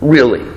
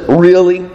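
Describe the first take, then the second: First: "Really?" dropped low and falling, earnest; a firm low "Really?" that means it; serious. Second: "Really?" asked as doubting disbelief; a questioning "Really?" that can't believe it. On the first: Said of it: "if the other one is serious". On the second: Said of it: "in disbelief". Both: Shown as a demonstration.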